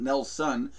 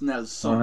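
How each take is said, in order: First: The name is pronounced the usual English way. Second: The name is pronounced the French way. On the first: "my name isn't Nelson" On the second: "Here in Quebec and in France, ... It's Nelson"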